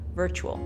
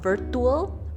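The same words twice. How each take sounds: First: The middle consonant is a ch sound. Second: The middle consonant is a plain t sound. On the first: The speaker calls it right. "Again with the ch sound" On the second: The speaker calls it wrong. "not a t sound. So not virtual"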